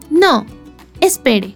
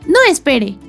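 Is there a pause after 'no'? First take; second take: yes; no. First: There is a pause after 'no'. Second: There is no pause after 'no'.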